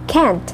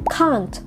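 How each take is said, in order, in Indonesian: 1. Diucapkan dengan aksen Amerika. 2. Diucapkan dengan aksen Inggris. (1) "ketika orang Amerika sendiri yang berbicara" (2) "sekarang kita ke British English"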